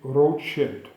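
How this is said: The name is said the German way.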